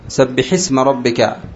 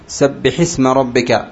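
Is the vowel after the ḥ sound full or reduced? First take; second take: full; full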